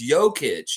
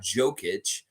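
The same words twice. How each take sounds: First: The first sound is a Y sound. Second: The first sound is a J sound. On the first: The speaker calls it right. "the J is always pronounced with a Y" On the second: The speaker calls it wrong. "It's not"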